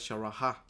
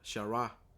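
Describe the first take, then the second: First: The final h sound is pronounced aloud. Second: The final h sound is left silent. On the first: The speaker calls it wrong. "no es Sharaha" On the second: The speaker calls it right. "la ja no se pronuncia explícitamente"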